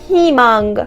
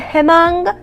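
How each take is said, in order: First: The first vowel is a clear 'ee'. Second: The first vowel is not a clear 'ee'. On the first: The speaker calls it right. "میگم هیمانگ" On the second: The speaker calls it wrong. "نمیگم همانگ"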